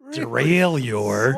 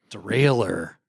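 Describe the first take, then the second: First: The word is said with a French-style ending. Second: The word is said with an English-style ending. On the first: The speaker calls it wrong. "Not derailleur" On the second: The speaker calls it right. "You would say derailer"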